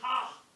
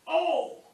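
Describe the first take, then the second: First: The vowel begins with a breathy h sound. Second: The vowel begins cleanly without an h sound. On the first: The speaker calls it wrong. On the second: The speaker calls it right.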